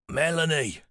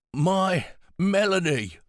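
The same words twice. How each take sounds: First: Put-on higher, weak old man calling her name; old pilot recognizing her, barely; frail old man. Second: Slow, higher, drawn-out tender repeat of her name; savouring her name, slowly; frail old man, stretched out. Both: A narrator's reading.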